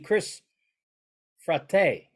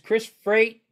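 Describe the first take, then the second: First: The surname is pronounced the Italian way. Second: The surname is pronounced the plain English way. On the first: "if we were in Italy, it would be Chris Frate" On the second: "his name is Chris Freight"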